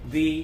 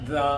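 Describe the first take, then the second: First: The vowel is a long 'ee' sound. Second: The vowel is a short 'uh' sound. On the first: "vowels ముందు ది అనాలి" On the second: "consonants ముందు ద అనాలి"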